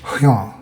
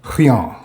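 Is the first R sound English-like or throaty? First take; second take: throaty; throaty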